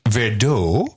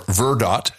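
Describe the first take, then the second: First: It is said the usual, standard way. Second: It is said the local regional way.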